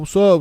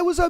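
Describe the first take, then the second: First: It is said in a deliberately deepened voice. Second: It is said in an ordinary speaking voice. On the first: He is trying to impress a woman nearby. "he like deepens his voice when she's around" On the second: He is just talking with his friends. "he's with you guys and he's just like"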